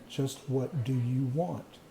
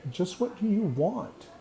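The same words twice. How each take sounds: First: Slow, deliberate question from the inner voice. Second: A higher, pointed voice in his head asking; a higher inner voice cutting in. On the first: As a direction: spell it out slowly, word by word. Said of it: "And the voice said". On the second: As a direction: let the inner voice jump up in pitch, challenging. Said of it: "I hear this voice in my head that says". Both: Retold or imitated.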